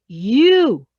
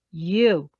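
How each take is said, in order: First: "you" loud and drawn out; accusing. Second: "you" softened from an accusation, still firm; said nicely. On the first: Trainer demonstrating a trigger word, accusing. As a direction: hit "you" hard, as blame. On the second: Trainer showing the word still triggers, said nicely. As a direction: say "you" nicely, without the punch. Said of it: "And say it nicely". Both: Shown as a demonstration.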